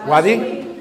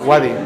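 First: "¿Wadi?" with a rising questioning pitch. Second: Said in the usual way. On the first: Shown as a demonstration. Teacher checking the class has the word, "¿Wadi?" rising. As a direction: ask "¿Wadi?" back with a lift at the end.

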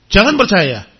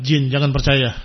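First: Louder, insistent repeat; firm warning. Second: Said in the usual way. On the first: Real, not acted. Teacher warns parents not to believe, louder. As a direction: press the warning home.

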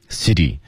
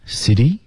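First: City said with a falling tune. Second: City said with a rising tune. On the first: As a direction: let city drop at the end. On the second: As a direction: lift the end of City. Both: Shown as a demonstration.

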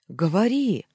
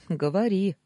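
First: Loud, high, impatient command; impatient bark. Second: Higher, lively smiling go-ahead. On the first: Former boss urging her to speak, impatient bark. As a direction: bark it, demanding an answer now. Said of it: "нетерпеливо рявкнул". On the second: Husband inviting his wife to speak, smiling. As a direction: say it through a smile. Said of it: "улыбнулся я". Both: A narrator's reading.

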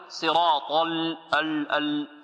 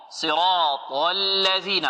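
First: صراط ال- with the ل wrongly made heavy; wrong pronunciation. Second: Slow صراط الذين, heavy ط then light ل; correct articulation. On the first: Teacher shows what not to say, heavy faulty ل. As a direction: darken the ل after صراط, repeating ال-. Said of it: "خطأ هذا". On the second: Teacher models the verse for students, correct slow articulation. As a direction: draw out صراط, then keep الذين thin. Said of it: "ولا نقول". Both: Shown as a demonstration.

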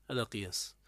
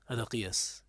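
Both takes have the same delivery.

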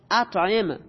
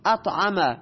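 First: اطعم read as "at'im", short i before final m; corrected vowels. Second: اطعم misread as "at'ama", with open a vowels. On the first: Teacher rereading the example for students, corrected to "at'im". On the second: Teacher reading an example to students, vowels misread as "at'ama". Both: Real, not acted. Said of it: "خودش آورده اطعم".

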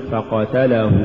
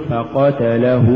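First: فقتله with short vowels cut; snatched vowels. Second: فقتله with each short vowel complete; full vowels. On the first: Teacher shows crooked reading, فقتله hurried. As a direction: hurry the syllables of فقتله. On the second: Teacher models correct recitation, فقتله evenly voweled. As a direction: give each syllable of فقتله equal room. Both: Shown as a demonstration. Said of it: "ولا تقل".

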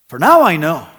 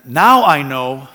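First: "now" louder with a falling tune; stress on now. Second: "Now" slow and loud, stretched; stress on now. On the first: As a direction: hit "now" then let it fall. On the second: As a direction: lean hard on "Now", slowly. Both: Shown as a demonstration. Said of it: "why does it say then".

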